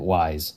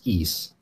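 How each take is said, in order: First: It is said like the word 'wise'. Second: It is said like the word 'east'. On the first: The speaker calls it wrong. "we always pronounced it Wise" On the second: The speaker calls it right. "it is in fact pronounced East"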